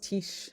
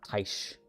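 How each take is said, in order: First: The vowel is a short i sound. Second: The vowel is an ai sound. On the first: The speaker calls it right. "It's Tish" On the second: The speaker calls it wrong. "not Taish"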